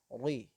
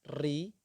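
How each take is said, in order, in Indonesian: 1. R-nya tebal dan terdengar berat. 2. R-nya digetarkan dengan banyak ketukan berulang. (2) "pengulangan yang terlalu banyak"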